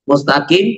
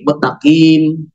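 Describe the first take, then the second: First: The s sound is kept before the t. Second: The s sound is merged into the t. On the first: The speaker calls it right. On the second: The speaker calls it wrong.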